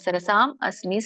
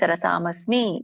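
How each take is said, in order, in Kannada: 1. ಈ ಎರಡು ಪದಗಳನ್ನು ಮಧ್ಯದಲ್ಲಿ ವಿರಾಮ ಕೊಟ್ಟು ಬೇರೆ ಬೇರೆಯಾಗಿ ಹೇಳಲಾಗಿದೆ. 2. ಈ ಎರಡು ಪದಗಳನ್ನು ಒಟ್ಟಿಗೆ ಸೇರಿಸಿ ಒಂದೇ ಪದದಂತೆ ಹೇಳಲಾಗಿದೆ. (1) "ಬಿಡಿಸಿದಾಗ ... ಸರಸಾಂ ಅಸ್ಮಿ ಅಂತ ಎರಡು ಪದ ಬರುತ್ತೆ" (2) "ಕೂಡಿ ಹೇಳಿ"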